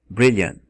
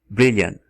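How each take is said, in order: Both takes have the same delivery.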